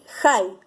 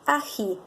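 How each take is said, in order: First: The h sound comes before the first vowel. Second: The h sound comes between the two vowels. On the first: The speaker calls it right. "Voy a decir jai" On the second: The speaker calls it wrong. "Es incorrecto decir ají"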